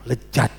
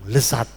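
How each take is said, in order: First: The middle consonant is a j sound. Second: The middle consonant is an s sound. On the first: The speaker is from West Java. "orang Tasik bilang lejat" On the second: The speaker is from East Java. "Surabaya bilang lesat"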